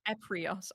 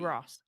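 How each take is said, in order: First: The r sound comes before the i. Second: The r sound comes after the i. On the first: The speaker calls it wrong. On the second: The speaker calls it right.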